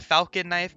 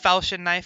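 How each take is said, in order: First: The middle consonant is a hard 'k' sound. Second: The middle consonant is a 'ch' sound. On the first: The speaker calls it wrong. "some people pronounce it the falcon knife" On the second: The speaker calls it right. "It's a falchion knife, okay? Let's let's get that straight"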